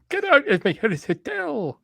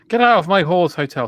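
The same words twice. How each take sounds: First: It is said in a Scottish accent. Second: It is said in a normal accent.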